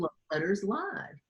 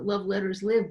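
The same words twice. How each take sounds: First: 'Live' has a long vowel, rhyming with 'five'. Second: 'Live' has a short vowel, rhyming with 'give'. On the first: It was meant as a live broadcast. "we thought we would have a call in radio show" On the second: The letters live on through the generations. "because they do. They live forever down the generations"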